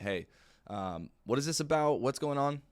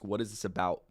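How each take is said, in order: First: A bit higher, pushy client asking; mildly wary caller demanding answers; suspicious client. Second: Said in the usual way. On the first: Retold or imitated. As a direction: prospect pushing back on the cold call, mildly wary. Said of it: "the common rebuttal". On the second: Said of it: "They might ask".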